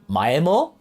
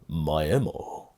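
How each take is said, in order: First: It is said in a plain, neutral tone. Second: It is said in a sinister, devilish drawl.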